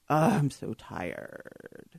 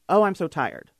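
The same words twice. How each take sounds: First: The voice is low and creaky in the throat. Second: The voice is plain, without a creaky rattle. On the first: "But vocal fry is" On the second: "So normal voice saying"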